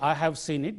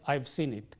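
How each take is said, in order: First: It is said as two full words. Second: It is collapsed into one contracted syllable. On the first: The speaker calls it wrong. "We don't say" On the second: The speaker calls it right.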